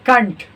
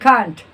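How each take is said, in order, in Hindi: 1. यह शब्द हल्के और छोटे रूप में बोला जाता है। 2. यह शब्द हल्के और छोटे रूप में बोला जाता है।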